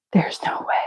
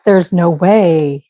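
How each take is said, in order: First: Hushed, stunned repeat to herself; disbelieving whisper. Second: Said in the usual way. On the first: Real, not acted. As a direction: whisper "There's no way" under breath. Realizing she repeated a square.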